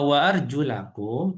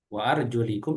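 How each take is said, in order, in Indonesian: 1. Vokal setelah arjul adalah bunyi a. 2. Vokal setelah arjul adalah bunyi i. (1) "itu dibasuh" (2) "kalau di kasrah itu diusap"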